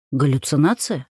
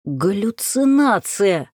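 First: Said in the usual way. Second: Медленный хриплый выкрик; прохрипеть слово, растягивая. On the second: Acted. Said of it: "прохрипел Ярослав". (хрипло и медленно)

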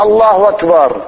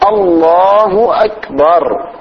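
First: الله أكبر with the hamza blurred into a w sound; wrong takbir. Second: الله أكبر slow, with hamzas sounded clearly; correct takbir. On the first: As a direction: slur the hamza of أكبر into the word before. (نطق خاطئ بقلب الهمزة) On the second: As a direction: pronounce الله أكبر carefully and slowly. (نطق صحيح بإظهار الهمزة) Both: Shown as a demonstration. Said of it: "مو الله أكبر".

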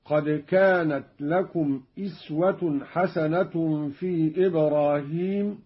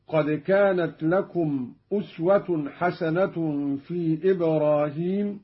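First: أسوة recited "iswatun", opening on i; Qalun's reading. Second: Said in the usual way. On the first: Shown as a demonstration. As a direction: start أسوة with a kasra on the hamza. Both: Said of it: "قرأ قالون في الموضعين".

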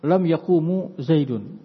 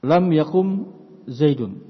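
First: Yaqumu slowly, long u and final u after m; drawn-out yaqumu ending in a vowel; wrong indicative reading. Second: Yakum closed on the final m; short vowelless ending on yakum; correct jussive reading. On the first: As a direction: say yaqumu with an added u at the end. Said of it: "Khata, keliru". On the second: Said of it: "Yakum fil mudhari majzum". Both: Shown as a demonstration.

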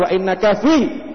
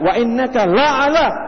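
First: "fi" drawn out as the wrong word; stress on fi. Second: "la'ala" slow, higher and emphatic; stress on la'ala. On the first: Preacher shows what the verse does not say, "fi" stressed. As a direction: slowly give the rejected wording, landing on "fi". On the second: Preacher shows the verse's true wording, "la'ala" stressed high and slow. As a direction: hammer "la'ala" as the correct word. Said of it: "pakai ala di situ". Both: Shown as a demonstration.

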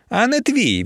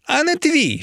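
First: High, cutting retort; menacing retort. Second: Very high-pitched, fierce snap back; fiercer menacing retort. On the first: Emiliia warning her rival off, menacing retort. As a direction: cut her off as threateningly as you can. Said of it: "відрізала Емілія якомога грізніше". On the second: Emiliia pressed by her rival, fiercer menacing retort. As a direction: cut in with a high, heated threat. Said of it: "ще грізніше втяла Емілія". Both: A narrator's reading.

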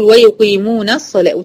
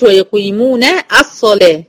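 First: "ويقيمون الصلاة" linked as "yuqimunas-salah"; joined, alif dropped. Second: "ويقيمون الصلاة" split as "yuqimuna / as-salah"; wrongly sounded alif. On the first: Teacher gives correct linking, "ويقيمون الصلاة" with no break. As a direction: run "na" straight into the saad of "الصلاة". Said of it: "بقول". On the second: Teacher shows the mistake, "ويقيمون الصلاة" as two separate words. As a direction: break before "الصلاة" and sound its opening "a". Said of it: "ما بقولش". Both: Shown as a demonstration.

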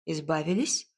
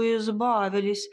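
First: ИЗБАВИЛИСЬ as a low question, rising at the end; startled question. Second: ИЗБАВИЛИСЬ stated firmly, a little raised; emphatic statement. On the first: A narrator's reading. Listener flinches at the cat's words, ИЗБАВИЛИСЬ said as a startled rising question. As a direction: echo ИЗБАВИЛИСЬ in startled doubt, lifting the ending. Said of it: "вздрогнула я". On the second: Acted. Cat tells how they got rid of the boy, ИЗБАВИЛИСЬ said as an emphatic statement. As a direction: stretch ИЗБАВИЛИСЬ as a settled fact. Cat's relieved statement, then echoed as question.

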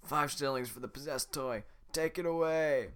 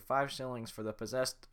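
First: Loud guard voice again right. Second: Guard voice wrong. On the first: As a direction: announce the price. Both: Acted. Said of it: "I forgot how to do it".

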